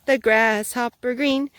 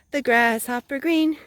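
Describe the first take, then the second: No difference in how they are said.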